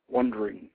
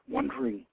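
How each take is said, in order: First: Falling wondering. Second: High, soft rising "wondering". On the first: Dazed Anath drifts, "wondering" falling away. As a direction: let "wondering" drop down. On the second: Dazed Anath drifts, "wondering" lifted soft and high. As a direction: let "wondering" float up softly. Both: A narrator's reading.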